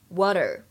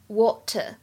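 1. 浊化的t，结尾带卷舌的r音。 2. 长o元音，结尾没有r音。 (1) "美式的话呢…末尾呢有一个卷舌头的动作，而且呢还有美音浊化" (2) "英式发音当中的元音，通常来说读成长元音的o，而且后面没有卷舌音"

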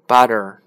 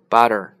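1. 中间的辅音听起来像 d。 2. 中间的辅音听起来像 d。

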